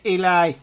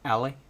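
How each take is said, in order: First: The name is said like 'Eli', ending in 'eye'. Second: The name is said like 'Ellie', two short syllables. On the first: The speaker calls it right. "His name's Eli" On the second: The speaker calls it wrong. "I was just saying ill"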